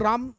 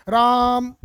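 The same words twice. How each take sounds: First: Said in the usual way. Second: राम called out loud and drawn long; calling from far. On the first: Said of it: "राम नज़दीक है तो हम लोग राम easily बोल लेंगे". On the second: Shown as a demonstration. Teacher calling राम to a distant person to show the prolonged vowel. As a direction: call राम to someone far away, stretching the vowel. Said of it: "दूर से संबोधित करते हैं".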